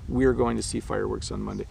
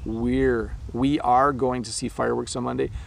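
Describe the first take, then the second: First: We are is contracted into one syllable. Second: We are is said as two full words. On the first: "it's we're going to see fireworks on Monday" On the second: "pronunciation of we are"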